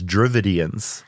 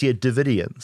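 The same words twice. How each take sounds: First: An r sound follows the first D. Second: No r sound follows the first D. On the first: The speaker calls it wrong. "I always thought, naively until this episode, that it was Dravidians. I'd pronounce it that way my whole life" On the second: The speaker calls it right. "but it's Dravidians"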